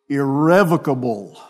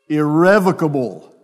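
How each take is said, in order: The two takes are said the same way.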